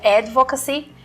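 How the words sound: It is pronounced the English way. "em inglês a pronúncia correta seria advocacy"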